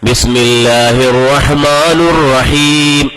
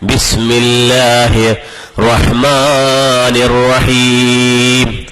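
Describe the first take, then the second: First: The ending before rahim has a u vowel. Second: The ending before rahim has an i vowel. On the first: The speaker calls it wrong. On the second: The speaker calls it right.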